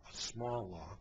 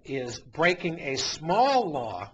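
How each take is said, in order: First: Softer, dropped low, repeating "a small law," with disdain; scornful aside. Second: Louder and slow, with the weight on "small" in "is breaking a small law,"; stressed quote. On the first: Real, not acted. Host mocking the protester's phrase, quiet scornful echo. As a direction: mutter it back as a sneer. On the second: Retold or imitated. Host reading the protester's words, slow stressed "small". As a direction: lean hard on "small" to underline the claim.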